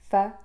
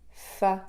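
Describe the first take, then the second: First: The consonant is short, with very little air released. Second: The consonant is longer, with a strong burst of air. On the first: The speaker calls it right. "Je veux les faire courtes sans les anticiper" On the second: The speaker calls it wrong. "Au lieu de"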